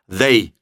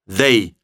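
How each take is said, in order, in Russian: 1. Слово начинается со звука th. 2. Слово начинается со звука th.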